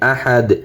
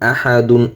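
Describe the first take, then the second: First: The word ends on d with no n. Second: The word ends with a final n sound. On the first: The reader stops at this word. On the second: The reading continues without stopping.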